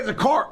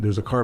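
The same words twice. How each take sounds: First: It is said with lively, varied expression. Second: It is said in a flat monotone. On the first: The speaker calls it right. "I wouldn't say like" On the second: The speaker calls it wrong. "I would talk like this the whole time"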